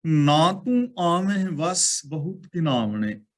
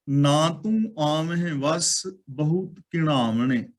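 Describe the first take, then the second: First: ਘਿਨਾਵਣੇ read with a plain dental n, ਘਿ-ਨਾ-ਵਣੇ; slow chanted line, ਘਿਨਾਵਣੇ said with ਨ instead of ਣ; wrong reading demo. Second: ਘਿਣਾਵਣੇ with a retroflex ṇ, ਘਿ-ਣਾ-ਵਣੇ; slow recited line, ਘਿਣਾਵਣੇ said with ਣ, tongue curled back; correct reading demo. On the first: Preacher shows the congregation the mistaken reading, ਘਿਨਾਵਣੇ with plain n. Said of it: "ਇਹਨੂੰ ਘਿਨਾਵਣੇ ਨਹੀਂ ਪੜ੍ਹਨਾ". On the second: Preacher gives the congregation the right reading, ਘਿਣਾਵਣੇ with retroflex ṇ. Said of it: "ਨਾਣੇ ਨੂੰ ਨਾਣਾ ਬੋਲਣਾ ਹੈ". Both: Shown as a demonstration.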